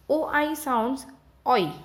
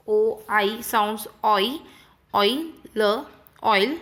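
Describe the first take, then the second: First: "oi" said on a falling tune; falling drill. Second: "O I sounds oi" said slowly, rising on "oi"; slow rising drill. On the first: Teacher models the sound, falling tune. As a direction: drop the voice on "oi". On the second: Teacher repeats the rule slowly for pupils, rising. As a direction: stretch it out and lift the "oi". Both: Shown as a demonstration.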